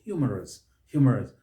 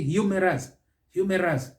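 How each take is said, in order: First: "humorous" as HYOO-muh-rus, falling; first-syllable stress. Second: "humorous" as hyoo-MEH-ras, higher pitched; misplaced stress. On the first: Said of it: "the stress is on the first syllable". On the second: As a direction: push a wrong MEH in the middle of "humorous". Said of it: "The stress is misplaced". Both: Shown as a demonstration.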